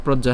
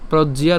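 First: "প্রজ্ঞা" ending in plain ja; wrong pronunciation. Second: "প্রজ্ঞিয়া" with ji-ya at the end; three syllables in "প্রজ্ঞিয়া"; correct pronunciation. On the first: Teacher naming what to avoid, two-syllable "প্রজ্ঞা". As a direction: drop the i-glide from "প্রজ্ঞা". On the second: Teacher insisting on the right form, clear "প্রজ্ঞিয়া". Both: Shown as a demonstration. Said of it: "not প্রজ্ঞা".

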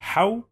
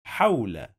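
First: حول broken as haw, pause, la; high-pitched haw, then a clear gap in حول; pause on sukoon. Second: Said in the usual way. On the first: Shown as a demonstration. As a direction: stop on the waw in حول before adding la. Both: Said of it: "we must pause on the letter".

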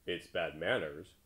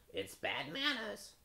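First: Slow, natural-pitched rebuke; frog's reproof. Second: High, slow, prim crow. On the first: Frog scolding the corn-eating crow, slow plain voice. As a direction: answer slowly in your own register. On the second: Crow excusing his silence, high crow voice. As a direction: pitch it way up like a talking bird. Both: A narrator's reading.

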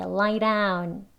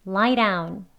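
First: DOWN with a full, stopped d; unflapped "lie down"; hard d. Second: DOWN starting on a quick tapped r; flapped d. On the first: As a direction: say "lie down" with a firm Korean ㄷ in DOWN. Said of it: "이라고 발음하지 않지요". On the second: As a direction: say "lie down" as "lai-raun". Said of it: "리을 소리로 들리지요". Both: Shown as a demonstration.

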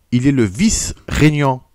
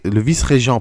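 First: «vice-régnant» dit avec un «gn» fautif; mot mal prononcé. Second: «vice-régent» bien articulé avec un «g» doux; correction. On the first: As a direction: lapsus sur «vice-régnant», avant correction. («vice-régnant» prononcé par erreur) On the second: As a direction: rectifier en «vice-régent», distinctement. («vice-régent» corrigé avec soin) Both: Real, not acted.

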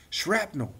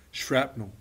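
First: Put-on higher boyish exclamation of Shrapnel; excited boy's voice. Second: Said in the usual way. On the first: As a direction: Derek showing off his find, Shrapnel. said higher. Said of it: "says Derek".

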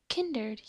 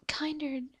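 First: "kindred" said with a short i, as in kin; corrected kindred. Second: "Kindred" said with a long i, as in kind; mispronounced Kindred. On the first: Finding the right term, "kindred" begins like kin. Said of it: "yes, kindred spirits". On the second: Searching for the term, "Kindred" comes out as KIND-red. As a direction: say "Kindred" starting like the word kind. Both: Real, not acted.

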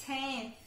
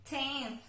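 Both takes have the same delivery.

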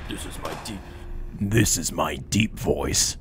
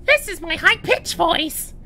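First: Deep voice. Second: Loud, squeaky-high put-on voice; high-pitched voice. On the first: Gamer auditioning for a voice role, deep voice. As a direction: drop right down and draw it out. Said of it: "Here's my deep voice". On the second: Gamer auditioning for a voice role, high-pitched voice. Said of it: "Here's my high-pitched voice". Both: Shown as a demonstration.

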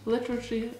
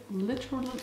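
The two takes are said the same way.

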